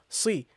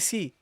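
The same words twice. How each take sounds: First: The consonant is said full and heavy. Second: The consonant is said thin and light. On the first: The speaker calls it right. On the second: The speaker calls it wrong.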